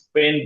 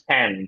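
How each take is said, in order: First: The vowel is like the e in bed. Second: The vowel is like the a in bad. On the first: The speaker calls it wrong. "স্পেন্ড না" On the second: The speaker calls it right. "পে না, প্যাঁ, স্প্যান্ড"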